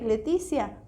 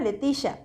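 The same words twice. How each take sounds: First: The name ends with a 'see-a' sound. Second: The name ends with a 'sha' sound.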